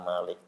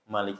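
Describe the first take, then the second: First: The first vowel is long. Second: The first vowel is short. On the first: "membacanya dengan panjang" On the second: "kalau ada seorang baca pendek"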